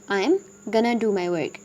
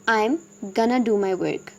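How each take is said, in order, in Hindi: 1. Going to को मिलाकर एक छोटा शब्द बोला जाता है। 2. Going to को मिलाकर एक छोटा शब्द बोला जाता है।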